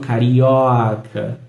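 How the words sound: The o vowel is long and open. "esse carioca pode ser mais longo e mais aberto"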